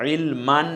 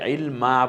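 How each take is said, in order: First: The word ends with a nasal 'an' sound. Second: The word ends with a long open 'a'. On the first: The speaker calls it wrong. "ইলমান না বলে" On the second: The speaker calls it right. "আমরা ইলমা বলবো"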